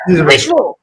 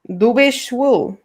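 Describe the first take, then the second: First: It is said with an angry, forceful tone. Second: It is said mildly, without much anger. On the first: The speaker calls it right. "There we go" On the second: The speaker calls it wrong. "I didn't sound angry enough"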